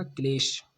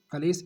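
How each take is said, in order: First: क्लेश with the kl cluster; correct form. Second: कलेश with a vowel after क; wrong form. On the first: Teacher giving the correct word to students, clearly. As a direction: say क्लेश as klesh, no vowel after क. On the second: Teacher reading the misspelling to students, plainly. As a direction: say कलेश as ka-lesh. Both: Shown as a demonstration. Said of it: "कलेश इस प्रकार लिखा जाएगा".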